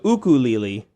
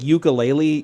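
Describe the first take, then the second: First: It is said the Hawaiian way. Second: It is said the common English way. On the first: The speaker calls it right. "the actual proper pronunciation is ukulele. So ukulele" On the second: The speaker calls it wrong. "I thought it was like ukulele"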